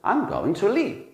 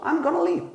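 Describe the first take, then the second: First: 'Going to' is said in full, word by word. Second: 'Going to' is blended into a short 'gonna'. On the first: "This means I am going to leave" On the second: "So I'm gonna is short for I'm going to"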